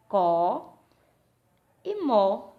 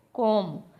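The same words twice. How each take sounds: First: "Có" loud and alone, pause, then "mó"; split into syllables. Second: Said in the usual way. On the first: Shown as a demonstration. Teacher showing pupils how to divide the word, split into syllables. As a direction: break "como" into two stressed, separate syllables. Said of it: "vai fazer separando a sílaba". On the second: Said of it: "separando a sílaba".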